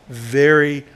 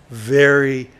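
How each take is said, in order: Both takes have the same delivery.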